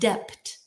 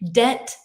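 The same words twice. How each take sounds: First: The word is said with a b sound. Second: The word is said with no b sound. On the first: The speaker calls it wrong. "not debt" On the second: The speaker calls it right. "debt is no B"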